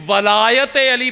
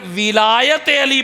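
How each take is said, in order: First: The first vowel is an 'a' sound. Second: The first vowel is an 'i' sound. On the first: It means lordship. "वाओ के ऊपर फतह जबर यानी वलायत Ali" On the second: It means caliphate. "वाओ के नीचे कसरा जेर विलायत"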